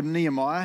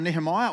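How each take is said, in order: First: Other way of saying Nehemiah, with the h dropped; alternative pronunciation. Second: First way of saying Nehemiah, with the h sounded; pronunciation variant. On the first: Preacher offers another way to say the name, Nehemiah without the h. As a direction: say "Nehemiah" as nee-uh-MY-uh. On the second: Preacher offers one way to say the name, Nehemiah with an h. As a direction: say "Nehemiah" as nee-huh-MY-uh. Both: Shown as a demonstration. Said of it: "however you wanna say it".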